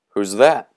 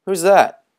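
First: Said in the usual way. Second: Much higher, loud and eager; excited high question. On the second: Acted. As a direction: ask it squealing with excitement. Boys questioning each other.

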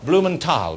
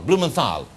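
First: Blumenthal with a hard T, "-tal"; Blumenthal, plain T in the last syllable. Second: Blumenthal with a TH, "-thal"; TH sound. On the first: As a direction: say Blumenthal ending like "tall". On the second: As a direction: say Blumenthal with TH as in thin. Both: Shown as a demonstration. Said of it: "Tal or Thal?".

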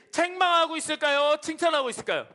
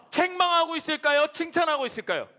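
The two takes are said the same way.

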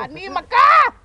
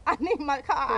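First: Desperate yell. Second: Said in the usual way. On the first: Real, not acted. Repeated plea.

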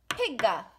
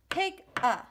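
First: Pigga run together as one quick sound; connected syllables. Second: Pig a said as two separate sounds, higher; separated syllables. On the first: Teacher showing the joined rhythm. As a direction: blend Pig and a into Pigga. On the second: Teacher contrasting the split syllables. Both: Shown as a demonstration. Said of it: "Two sounds. One beat".

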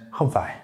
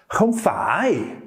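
First: "không phải" kept short, falling at the end; an easy "không phải" with no rise; calm, relaxed. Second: "phải" drawn out high with a big dip and rise; intense rejection. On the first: Teacher letting you hear the difference, calm falling "không phải". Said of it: "sound more calm and relaxed". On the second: Teacher letting you hear the difference, intense drawn-out "không phải". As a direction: stretch "không phải" slowly and pull it high. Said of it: "you can hear the difference there in how I'm saying". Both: Shown as a demonstration.

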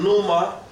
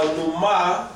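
First: "numa" as NU-ma, first syllable stressed. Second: "numa" as nu-MA, final syllable stressed and drawn out; stress on second syllable. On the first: Teacher contrasts two meanings, "numa" stressed on the first syllable. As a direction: put the weight on the start of "numa". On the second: Teacher contrasts two meanings, "numa" stressed on the last syllable. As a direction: put the weight on the end of "numa". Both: Shown as a demonstration. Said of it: "it means two different things".

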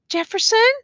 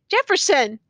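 First: High, rising, loud call of a name; pleading call. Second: High name call with a firm falling end; insistent call. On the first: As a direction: call the name as an anxious question. Woman calling unresponsive prisoner. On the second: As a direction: call the name firmly, pitch dropping. Woman calling unresponsive prisoner again. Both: A narrator's reading.

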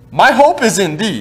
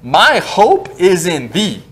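First: Hope leaned on firmly at normal pace; stress on hope. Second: My hope is in thee, each word drawn out slowly; slow solemn scripture reading; slow, weighty reading. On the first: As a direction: land on the word hope. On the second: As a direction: read it very slowly to give it weight. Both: Shown as a demonstration. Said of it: "five words here are important".

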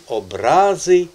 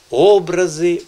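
First: "образи" with a slow, loud РА; "образи" as обРАзи, middle syllable long; stress on second syllable. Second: "образи" with a loud, high О; "образи" as Образи, first syllable strong; stress on first syllable. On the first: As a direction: stretch and punch РА in "образи". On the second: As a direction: hit the О of "образи" hard. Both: Shown as a demonstration. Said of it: "залишилося нам ще один наголос".

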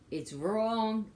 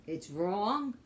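The two takes are said the same way.

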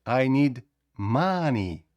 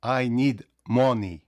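First: «I need money» slow, with the stress pushed onto «need». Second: «I need money» said slowly, every word even and careful; wrong English. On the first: («I need money» повільно, з наголосом на «need») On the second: («I need money» повільно, рівно, кожне слово окремо) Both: Shown as a demonstration. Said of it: "не пробуйте казати".

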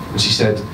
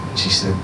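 The two takes are said the same way.

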